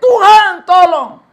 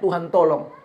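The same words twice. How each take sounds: First: High, loud desperate shout; man falling into a ravine screams for God's help; retold cry for help. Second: Said in the usual way. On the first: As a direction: yell to God from the ravine. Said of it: "dia berteriak". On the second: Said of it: "Waktu dia berteriak".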